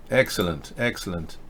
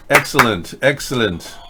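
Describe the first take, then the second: First: Much lower and much softer repeat; hushed echo. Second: Said in the usual way. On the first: Acted. Host repeating praise to himself, hushed. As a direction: drop it to a murmured afterthought.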